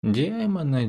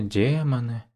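First: High drawn-out first демоны; lilting languid демоны; sultry drawl. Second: Dropping the voice on демоны; sultry drawl. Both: Acted. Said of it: "томно протянула".

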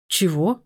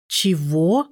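First: Said in the usual way. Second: Drawn-out, disbelieving "Чего?"; stunned, emphatic rising question; incredulous repeat. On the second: A narrator's reading. Repeated, disbelieving reply on the phone.

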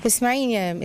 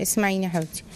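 First: Said in the usual way. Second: Tender reassurance. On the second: Real, not acted. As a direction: soothe her gently before advising.

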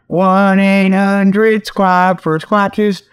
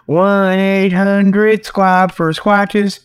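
No difference in how they are said.

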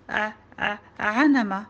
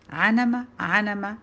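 First: Stuttered ع then عنمة with ayn replacing ghayn; halting attempts at ع, then a slow عنمة; struggling mispronunciation. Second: Quick teasing echo of عنمة with ayn; mocking mimicry. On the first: Joud trying a hard letter, عنمة said haltingly with ayn. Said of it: "قلت". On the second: Classmate laughing at Joud's mistake, mocking عنمة. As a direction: parrot the mispronounced عنمة mockingly. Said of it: "يضحك أكثر قائلًا". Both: A narrator's reading.

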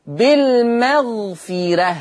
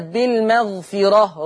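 First: Slow recited بالمغفرة ending in thin "reh"; light ra. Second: بالمغفرة ending in a thick "rah"; heavy ra. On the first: Teacher shows Warsh's reading, slow light "reh" in بالمغفرة. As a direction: front the ra of بالمغفرة toward "re". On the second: Teacher shows what Warsh avoids, heavy "ro" ending in بالمغفرة. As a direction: back the ra of بالمغفرة toward "ro". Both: Shown as a demonstration. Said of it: "وليست بالمغفرة".

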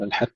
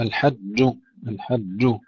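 First: الحج with the jim turned into a hissy ch; sh-tinged jim. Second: الحج with a held, voiced doubled jim. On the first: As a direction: let sh creep into the final j of الحج. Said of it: "ألا يدخلها شيء من الشين، فنقول". (الحج بجيم يدخلها صوت الشين) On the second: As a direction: say الحج with a firm geminated j, no sh in it. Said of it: "الجيم مشددة ألا يدخلها شيء من الشين". (الحج بجيم مشددة لا يدخلها شين) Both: Shown as a demonstration.

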